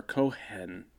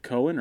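First: Cohen said as co-HEN, second syllable stressed; alternative pronunciation. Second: Said in the usual way. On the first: Shown as a demonstration. Host asking how his surname is said, alternative pronunciation. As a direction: split Cohen into co-HEN with a clear h. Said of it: "called me Mister Cohen". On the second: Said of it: "is it Cohen or Cohen?".

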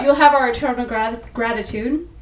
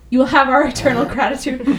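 First: Said in the usual way. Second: Breathless, running short on air; out of breath. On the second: Real, not acted. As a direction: squeeze the words out between breaths. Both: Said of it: "So I'm, like, weirdly out of breath".

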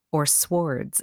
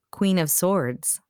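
First: Swords said with its w sounded; w pronounced. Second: Said in the usual way. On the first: Shown as a demonstration. Host shares a pet pronunciation, Swords with a sounded w. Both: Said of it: "as I like to say it".

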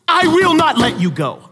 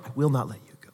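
First: Raised, firm, each word planted; firm loud declaration. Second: Hushed, lower and gentle; soft tender repeat. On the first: God chasing the runaway down, a loud firm vow. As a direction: vow it loudly, refusing to let go. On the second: God holding the runaway close, a hushed tender echo. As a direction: say it again softly, close and intimate. Repeated softly after loud take. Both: Retold or imitated.

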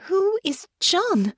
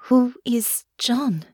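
First: High, slow, insistent question; high-pitched, drawn-out demand. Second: Slow, higher, careful question; tender, unpressing curiosity; gentle question. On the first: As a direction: demand an answer, stretching the words. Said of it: "Honor demanded". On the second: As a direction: ask carefully, drawing out the words. Gently asks about the nightmare. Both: A narrator's reading.

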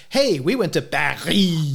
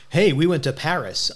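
First: Paris as an exaggerated French "Pa-ree"; hammed-up French ending, drawn out slowly on Paris; showy French pronunciation. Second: Said in the usual way. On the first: Co-host mocking people who show off French, affected French Paris. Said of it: "I don't say". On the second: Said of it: "I'm not one of those people who".

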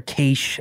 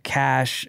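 First: "cache" said like "kaysh". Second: "cache" said like "cash". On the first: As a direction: say "cache" with a long A. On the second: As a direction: say "cache" with a short A. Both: Shown as a demonstration. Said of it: "as some people say".

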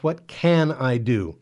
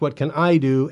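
First: Slow, with "can" as the peak word and a falling end; stress on CAN. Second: The word "I" punched, louder than the rest; stress on I. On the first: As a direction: draw it out slowly and lean on "can". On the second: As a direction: lean hard on "I" as if you alone must act. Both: Shown as a demonstration. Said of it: "it's the wrong emphasis".

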